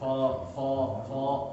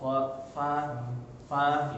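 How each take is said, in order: First: The letter is pronounced with a thick sound. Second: The letter is pronounced with a thin sound. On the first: The speaker calls it wrong. "jangan fo fo fo" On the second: The speaker calls it right. "Dia tipis"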